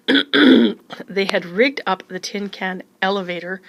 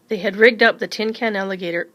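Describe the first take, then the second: First: "elevator" said slowly and deliberately, fixing the slip; slow down and say "elevator" clearly; careful correction. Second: "alligator" said by mistake for "elevator"; misreading. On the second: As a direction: slip and say "alligator". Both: Real, not acted. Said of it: "clears throat".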